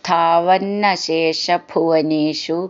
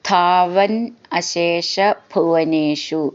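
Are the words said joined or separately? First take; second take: joined; separately. First: The words are run together with sandhi. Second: The words are said as separate units.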